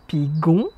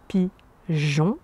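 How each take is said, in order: First: The g is a hard g sound. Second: The g is a soft zh sound. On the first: The speaker calls it wrong. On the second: The speaker calls it right.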